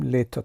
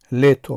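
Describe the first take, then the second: First: Лето with final о reduced to "a"; spoken pronunciation. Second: Лето read as written, ending in a full "o"; spelling pronunciation. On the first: Teacher showing learners how it is pronounced, natural vowel reduction. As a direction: say лето as "LYE-ta". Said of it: "лето талаффуз мекунем". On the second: Teacher showing learners how it is written, emphatic spelling pronunciation. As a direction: say лето loudly as "LYE-to". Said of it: "лето менависем". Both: Shown as a demonstration.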